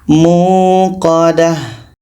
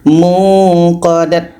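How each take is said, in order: First: The word ends with an h sound. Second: The word ends with a t sound. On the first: The speaker calls it right. "menjadi huruf H yang berbaris sukun atau mati. Kita baca narullahil muqadah" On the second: The speaker calls it wrong. "Kalau berhenti tidak boleh dibaca muqadat"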